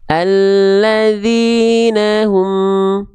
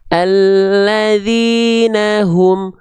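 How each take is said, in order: First: The throat h sound is faint and unclear. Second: The throat h sound is clear with flowing breath. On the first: The speaker calls it wrong. "itu kan nafasnya nggak jelas" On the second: The speaker calls it right. "Jelasnya tekan di pangkal tenggorokan"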